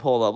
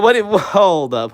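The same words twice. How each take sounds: First: Said in the usual way. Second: Slow, higher and louder, taken aback; baffled surprise. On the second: Real, not acted. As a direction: stop and react in disbelief. Baffled by a viewer's question.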